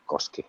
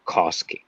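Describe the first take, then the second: First: Koski said the Finnish way, short O; Finnish pronunciation. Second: Koski said the American way, open first vowel; American pronunciation. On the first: Guest shows the more boring version, Koski in plain Finnish pronunciation. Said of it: "in Finnish, it's just Koski". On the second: Guest shows the name he likes, Koski in strong American pronunciation. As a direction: say Koski as an American would, drawn-out first syllable. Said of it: "the American way to pronounce". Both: Shown as a demonstration.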